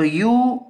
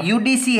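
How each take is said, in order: First: UDC with long pauses between U, D and C; spelled out for writing. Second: Said in the usual way. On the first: Shown as a demonstration. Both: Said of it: "अब UDC में आप लिखेंगे".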